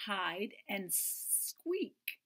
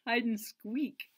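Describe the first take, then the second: First: Hide and Squeak, slow with squeak drawn out; slow and clear, leaning on Squeak; stress on squeak. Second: Hide and squeak slow, squeak leaned on; slow correction, hit squeak; stress on squeak. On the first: Reading the title to children, slow on Squeak. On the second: Correcting the title for the kids, slow on squeak. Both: Shown as a demonstration. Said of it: "Not hide and seek".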